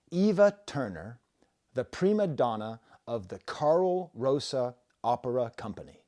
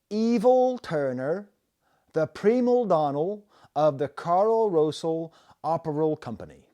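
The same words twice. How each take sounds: First: Said in the usual way. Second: L on vowel endings: "Evil" for Eva, primal, donnal; high, loud, drawn-out "Evil Turner", an L after each final vowel; Bristol added L. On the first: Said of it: "It says". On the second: Shown as a demonstration. Imitating Bristol street interviewees, "Evil Turner" with added L's. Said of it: "this is how every single person".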